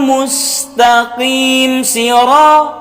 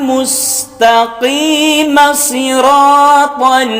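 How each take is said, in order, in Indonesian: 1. Mim akhir dibiarkan tanpa harakat. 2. Mim akhir diberi harakat yang menyambung ke kata berikutnya. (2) "dihidupkan kembali mimnya"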